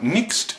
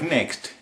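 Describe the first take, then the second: First: It is said in a New Zealand accent. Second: It is said in an Australian accent. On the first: "they say things like next" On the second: "instead of next"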